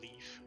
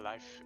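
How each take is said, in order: First: The vowel sounds like 'ee', rhyming with leaf. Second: The vowel sounds like 'eye', rhyming with life.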